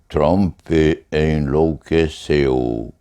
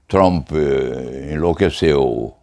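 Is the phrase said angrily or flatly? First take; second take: flatly; angrily. First: It is said calmly and evenly, without outburst. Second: It is said with an angry, explosive outburst. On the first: The speaker calls it right. "dever-se-ia dizer" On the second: The speaker calls it wrong. "não se podia dizer"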